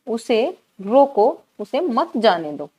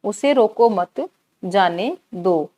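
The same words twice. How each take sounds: First: रोको drawn out, a break, then मत जाने दो together; pause after रोको. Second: उसे रोको मत run together, a break, then जाने दो slowly; pause after मत. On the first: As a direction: stretch रोको, stop, then stress मत before जाने दो. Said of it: "रोको के बाद यहाँ किया अल्प विराम". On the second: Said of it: "हमने अल्प विराम का कहाँ प्रयोग किया". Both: Shown as a demonstration.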